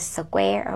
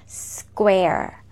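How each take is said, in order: First: The opening consonants are pulled apart separately. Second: The opening consonants are run quickly together. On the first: The speaker calls it wrong. "please do not separate the consonant cluster like squa, not like square" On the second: The speaker calls it right. "We have to pronounce them quickly together, fluently, naturally"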